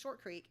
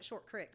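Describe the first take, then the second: First: Creek has a long ee vowel. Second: Creek has a short vowel, like crick. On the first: This is the standard name. "but it's" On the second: This is how the locals said it. "They all called it"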